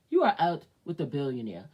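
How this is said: It is said in a changed, put-on voice.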